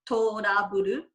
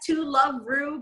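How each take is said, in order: First: It is said like Japanese-style 'trouble'. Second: It is said like the English words 'to love'. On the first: This is how the title is meant to be read. "in the Japanese pronunciation" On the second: This is how non-Japanese readers read the title. "we s- read it as To Love Ru"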